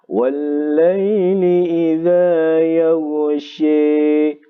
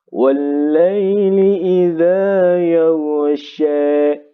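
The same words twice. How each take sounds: First: The final vowel leans strongly toward 'e'. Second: The final vowel leans slightly toward 'e'. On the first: "itu imalah" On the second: "Itu seperti itu ya bacaan taklil"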